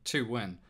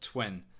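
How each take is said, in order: First: It is said as two separate syllables. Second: It is said as a single syllable.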